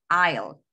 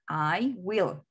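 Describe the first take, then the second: First: The words are contracted into one syllable. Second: Both words are said in full. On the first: "En forma corta, ¿cómo se pronuncia?" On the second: "¿Cómo se pronuncia la forma larga?"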